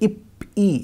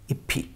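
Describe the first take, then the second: First: A plain p ends the first syllable. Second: An aspirated ph starts the second syllable. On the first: The speaker calls it wrong. "इसको अगर पढ़ेंगे अब तो वो गलत होगा" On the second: The speaker calls it right. "इसका प्रोनाउंसिएशन जो नेचुरल होता है फ वही होगा"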